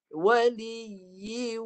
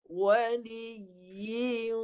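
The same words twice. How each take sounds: First: The sound comes only through the mouth, unnasalized. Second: The sound comes through both mouth and nose. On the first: The speaker calls it wrong. "Itu bunyi kat mulut saja, hidung tak ada" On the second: The speaker calls it right. "Mulut sebahagian, hidung sebahagian. Bunyi dia macam ni"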